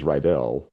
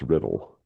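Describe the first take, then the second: First: The name is said in its usual way. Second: The name is said to sound like 'riddle'. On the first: "his last name is Rydell" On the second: "if you pronounce it a different way, it's Riddle"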